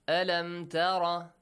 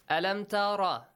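The two takes are said the same way.

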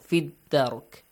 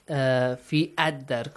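First: 'Fi' runs straight into 'dark' with no extra vowel. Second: A separate vowel is sounded before 'dark'. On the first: The speaker calls it right. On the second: The speaker calls it wrong. "Not fi ad-dark, no"

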